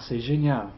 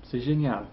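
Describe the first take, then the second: No difference in how they are said.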